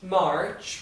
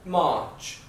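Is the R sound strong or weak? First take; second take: strong; weak. First: The R sound is strong and clearly heard. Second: The R sound is weak or barely heard.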